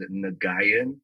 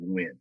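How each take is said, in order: First: The name is spelled out in several syllables. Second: The name is one short syllable, win. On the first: "like really, just really spelt it out" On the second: "the proper way to say it is actually Win"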